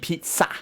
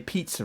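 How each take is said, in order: First: The final vowel is an 'ah' sound. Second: The final vowel is not an 'ah' sound. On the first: The speaker calls it right. "like an ah at the end" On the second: The speaker calls it wrong. "Apparently we say pizza wrong"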